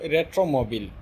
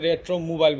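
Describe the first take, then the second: First: The word ends with a short 'beel' sound. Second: The word ends with a 'bile' sound, like mile. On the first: This is the original form of the name. "এটার মূল শব্দ কিন্তু রেট্রোমোবিল" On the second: The app reads it as two separate words. "সে কিন্তু রেট্রো মোবাইল বলতেছে"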